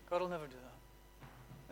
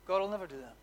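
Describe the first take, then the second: First: Much softer, almost breathed; hushed repeat. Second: Said in the usual way. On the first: Shown as a demonstration. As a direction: let it fall to a hush, gently. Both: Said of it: "repeated softer".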